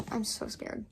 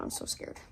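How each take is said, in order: First: Said in the usual way. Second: Breathy whisper of mock fright; whispered fear. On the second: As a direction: whisper it as if scared to say it aloud. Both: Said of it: "Oh my god".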